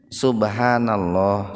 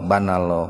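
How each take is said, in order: First: All four syllables are said in full. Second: The first syllable is dropped, leaving three syllables. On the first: The speaker calls it right. "jadi kudu bener kalimatna" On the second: The speaker calls it wrong. "Kan sok aya nu tasbihna kieu"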